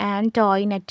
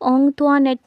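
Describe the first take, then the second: First: It begins with 'ant' and sounds 'toy'. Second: It begins with nasal 'ong' and sounds 'twa'. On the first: This is how most classmates and teachers said it. The speaker calls it wrong. "മിക്ക ആളുകളും pronounce ചെയ്തത് എന്തായിരുന്നു?" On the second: This is how the name ought to be said. The speaker calls it right. "അവളുടെ പേരെങ്ങനെ pronounce ചെയ്യണമെന്ന് പഠിച്ചു"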